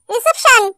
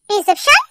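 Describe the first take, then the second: First: Said in the usual way. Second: reception said low with a rising question tune; questioning echo. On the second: Acted. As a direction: echo reception back, lifting the end as a question. Echoes the answer as a question. (Reception को सवाल की तरह, अंत में चढ़ते सुर में)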